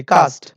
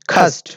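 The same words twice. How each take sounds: First: Everyday local "cast"; local learner pronunciation. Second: "cast" with a strongly aspirated k, khast; careful teacher's model of "cast"; model pronunciation. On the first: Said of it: "আমরা এই যে বাংলাদেশে learner বলি". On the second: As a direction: puff of air on the k of "cast". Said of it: "তোমাকে must be remember করতে হবে এটা". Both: Shown as a demonstration.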